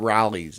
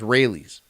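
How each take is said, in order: First: The name sounds like 'Rallies'. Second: The name sounds like 'Rayleigh's'. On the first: The speaker calls it wrong. "It's not Rallies" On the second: The speaker calls it right. "It's Rayleigh's"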